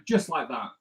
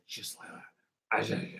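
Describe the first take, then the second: First: Said in the usual way. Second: Hushed, husky comedian catchphrase, drawn out; low, slow comic impression, nearly all breath; Tommy Cooper. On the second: Artist quoting a comedian after saying it himself, hushed comic impression. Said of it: "That's my Tommy Cooper impression".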